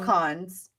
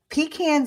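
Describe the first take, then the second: First: The first syllable does not sound like 'pee'. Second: The first syllable sounds like the word 'pee'. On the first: The nuts you eat. "Pecans are something you eat" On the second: Cans used as a toilet. "Pecans are cans you pee in"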